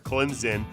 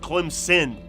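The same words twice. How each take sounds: First: The middle consonant sounds like a z. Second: The middle consonant sounds like an s. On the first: This is how Southerners say it. "the Southerners love to put the Z for Clemson" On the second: This is how Northerners say it. "Northerners will tell you there's no Z, it's Clemson"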